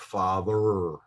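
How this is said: It ends with an American-style R sound. The speaker calls it wrong. "especially if you come from the Midwest like I do, you tend to uh, pronounce the R sound at the end of the word"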